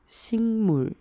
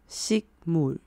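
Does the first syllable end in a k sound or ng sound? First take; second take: ng; k. First: The first syllable ends in an ng sound. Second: The first syllable ends in a k sound. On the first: "它会变成一样的发音……所以听起来是" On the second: "如果两个字分开念的话"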